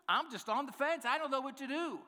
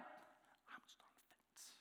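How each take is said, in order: First: Higher, fretting, pretend helpless; mock-fretful higher voice. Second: Breathy mock whisper, almost silent; whispered aside. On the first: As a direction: whine it like you truly can't decide. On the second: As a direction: whisper the excuse to yourself. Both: Shown as a demonstration. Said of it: "I don't even get that one".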